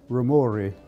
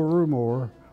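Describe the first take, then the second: First: The surname is said the original Italian way. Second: The surname is said the everyday American way. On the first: The speaker calls it right. "if it were pronounced correctly, it would be Rumori. It's an Italian name" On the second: The speaker calls it wrong. "everybody calls me Joe, [name]"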